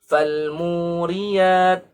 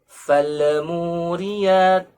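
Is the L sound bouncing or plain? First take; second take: plain; bouncing. First: The L is said plainly without a bounce. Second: The L is said with a bouncing echo. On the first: The speaker calls it right. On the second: The speaker calls it wrong.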